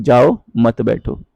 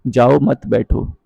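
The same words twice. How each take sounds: First: Slow, with a break between जाओ and मत बैठो; pause after जाओ. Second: Said in the usual way. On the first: Shown as a demonstration. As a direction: say जाओ, stop briefly, then मत बैठो. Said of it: "कहाँ पर विराम चिन्ह लगाया है". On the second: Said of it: "ये विराम चिन्ह पर डिपेंड करता है".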